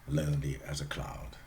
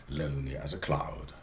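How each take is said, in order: The two takes are said the same way.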